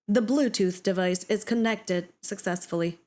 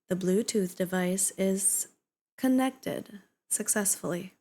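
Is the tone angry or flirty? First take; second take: angry; flirty. First: It is said in an angry tone. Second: It is said in a flirty tone. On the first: "I don't know if I can sound angry" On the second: "Let's try flirty"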